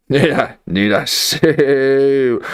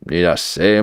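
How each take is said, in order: First: Slow, higher, with a long stretched SAY; drawn-out repeat. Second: Said in the usual way. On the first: Real, not acted. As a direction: drag out "say" for emphasis. Same question repeated, second stretched.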